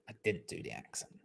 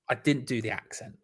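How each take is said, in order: First: Breathy whisper, barely there; whispered aside. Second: Said in the usual way. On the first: Shown as a demonstration.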